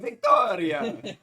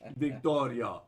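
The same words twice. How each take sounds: First: The name is said in an Italian accent. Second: The name is said in a Russian accent. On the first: "That's the Italian one, obviously. It's authentic" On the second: "That's Russian"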